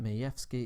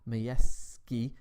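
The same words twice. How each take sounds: First: The name has a slight f sound. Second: The name has no f sound. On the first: The speaker calls it right. "the correct way to pronounce that. ... got a slight F in there" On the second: The speaker calls it wrong. "Not Majewski"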